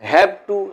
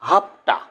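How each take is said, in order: First: Both words are said fully and separately. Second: The words blend into one short reduced word. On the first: "পূর্ণরূপ" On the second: "assimilation"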